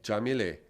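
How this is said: The name begins with a soft J sound. This is how it is said in Cuba. "Em Cuba é Jamilé"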